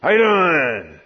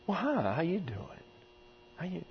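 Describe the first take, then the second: First: Louder and booming; scary loud greeting. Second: Much softer, hushed hi how you doing; gentle greeting. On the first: Preacher shows the greeting that frightens children off, loud. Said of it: "They run". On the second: Preacher shows the soft greeting children accept, hushed. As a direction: ease in soft so the child stays. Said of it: "if you walk up and say". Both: Shown as a demonstration.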